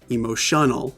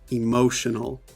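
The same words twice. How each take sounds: First: The stress is not on the second syllable. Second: The stress is on the second syllable. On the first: The speaker calls it wrong. "Not emotional. That would be wrong" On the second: The speaker calls it right. "this apostrophe before the M O. That shows us that this is the stressed syllable"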